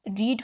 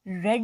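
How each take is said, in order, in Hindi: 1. स्वर लंबा है, 'reed' जैसा। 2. स्वर छोटा है, 'red' जैसा। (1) "रीड first form of verb है" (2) "रेड इसकी सेकंड हो गई। स्पेलिंग वही रहेंगे, रीड वाले बोलने में चेंज हो जाएगा"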